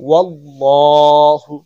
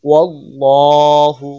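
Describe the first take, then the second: The two takes are said the same way.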